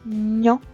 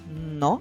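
First: The n sound is soft, palatalized. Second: The n sound is hard, not softened.

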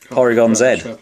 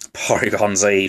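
First: The final letter is pronounced zed. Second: The final letter is pronounced zee. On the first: This is the British way of saying it. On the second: This is the American way of saying it.

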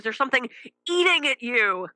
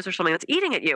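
First: It is said in a more dramatic, emphatic way. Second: It is said in a plain, ordinary way.

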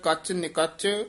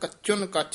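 First: The phrase is read as 'kach nikach'. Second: The phrase is read as 'kachun kach'. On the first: This is how the phrase is written. "ਲਿਖਿਆ ਕੱਚ ਨਿਕੱਚ" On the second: Even more unripe than the unripe. "ਸੰਪਰਦਾ ਦੇ ਵਿੱਚ ਪਾਠ ਕਰਾਇਆ ਜਾਂਦਾ ਕੱਚੁਨ ਕੱਚ"

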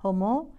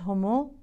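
The two takes are said the same way.

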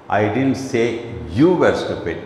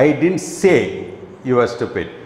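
First: The stress is on the word you. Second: The stress is on the word say.

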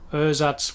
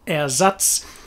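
First: The first vowel is a lazy, reduced sound. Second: The first vowel is a clear, open E. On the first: This is the usual English pronunciation. "but in English it's ersatz. We've got this lazy" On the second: This is the original German pronunciation. "this comes from the German for replacement"

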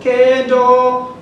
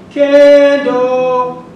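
First: The first syllable has no marked pitch movement. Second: The first syllable starts high and falls. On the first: It means a stove. "Kendo is a stove" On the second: It means to get married. "fluctuate the first syllable above so that they have a tone or a semitone falling"

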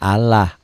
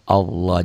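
First: The L is pronounced thin and light. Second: The L is pronounced thick and heavy. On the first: The speaker calls it wrong. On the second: The speaker calls it right. "dibaca tafkhim betul / dibaca tebal"

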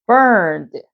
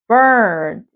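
No difference in how they are said.

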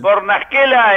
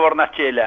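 First: The surname is pronounced the Italian way. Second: The surname is pronounced the Argentine way. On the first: "en italiano" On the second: "acá en la Argentina está bien pronunciado"

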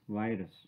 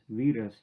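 First: The word is said the American way. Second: The word is said the European way. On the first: "Only in the America, it is pronounced as virus" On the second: "in most European countries, it is still pronounced as virus"

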